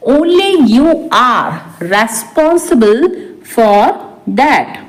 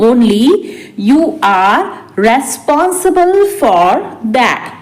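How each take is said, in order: First: Said in the usual way. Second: Spaced out for learners; slow repeat. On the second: Shown as a demonstration. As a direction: pause after the first word. Teacher repeats translation word by word. (धीरे-धीरे, रुक-रुककर)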